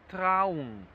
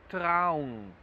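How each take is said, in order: The two takes are said the same way.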